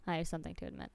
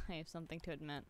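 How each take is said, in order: First: Said in the usual way. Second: Laughing. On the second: Real, not acted. Laughing confession to chat.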